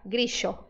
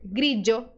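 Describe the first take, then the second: First: The middle consonant is an sh sound. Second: The middle consonant is a dj sound. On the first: "pode ser pronunciado como S H" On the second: "pode ser pronunciado como D J"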